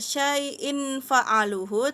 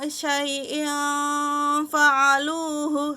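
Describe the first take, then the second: First: The n sound before f is pronounced clearly. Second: The n sound before f is hidden and nasal. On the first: The speaker calls it wrong. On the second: The speaker calls it right. "Samar dia ya. Jadi samar bukan jelas"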